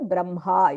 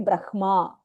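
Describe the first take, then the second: First: The nasal sound is said before the h. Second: The h is said before the nasal m. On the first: The speaker calls it right. "you say the anunasika first and then say the hakarah" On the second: The speaker calls it wrong. "you don't say brahma"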